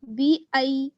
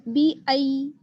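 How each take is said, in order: Both takes have the same delivery.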